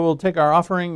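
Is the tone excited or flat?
flat. It is said in a flat, routine tone. "I always say that"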